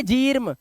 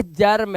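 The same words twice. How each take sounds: First: जीर्म with a long ee; wrong reading. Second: जर्म with a short uh before r; जर्म with the e turned to uh; short a reading. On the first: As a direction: say जीर्म as jeerm. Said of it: "जी नहीं है जीर्म". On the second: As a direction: say जर्म as jurm, no ee. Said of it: "ये जर्म है". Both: Shown as a demonstration.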